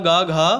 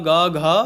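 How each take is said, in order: The two takes are said the same way.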